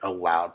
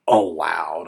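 First: Said in the usual way. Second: "allowed" louder and set apart, as if in quotes; stress on allowed. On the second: Real, not acted. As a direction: put audible quote marks around "allowed". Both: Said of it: "I say in quotes".

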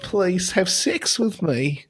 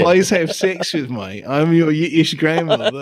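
First: High, slow plea in mock Yiddish accent; wandering Yiddish accent. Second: Aim for Yiddish grandmother, land in Cockney; Yiddish slipping into Cockney. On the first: Co-host as pleading robot, soft wandering Yiddish accent. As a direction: beg softly in a shaky-grasp Yiddish accent. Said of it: "my accent is going all over the place". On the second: Acted. Co-host as Yiddish grandmother, accent badly slipping into Cockney. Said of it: "now it's Cockney".

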